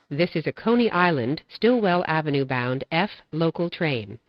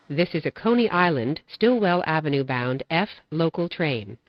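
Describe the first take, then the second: No difference in how they are said.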